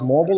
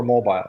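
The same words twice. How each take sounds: First: Mobile said as MOH-bull; first pronunciation offered. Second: Mobile said as MOH-bile; second pronunciation offered. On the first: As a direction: say mobile with a short, reduced ending. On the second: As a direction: say mobile with a long i at the end. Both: Shown as a demonstration. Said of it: "is it pronounced mobile or mobile".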